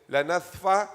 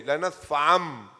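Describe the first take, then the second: First: Said in the usual way. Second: لَنَسْفَعَمْ with the final noon turned into a clear m before ba; noon said as mim. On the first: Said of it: "in Quranic Rasmul Khat, it is right like this". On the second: Shown as a demonstration. Teacher shows students how to recite it, noon becoming mim. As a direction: say لَنَسْفَعَمْ ending on a closed-lip m, fast. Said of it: "So how would you say?".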